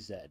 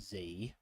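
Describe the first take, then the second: First: The letter is said the non-American way. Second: The letter is said the American way. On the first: "we don't say Z here. We say Z. That's how it should be" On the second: "I'm not American. I don't say Z"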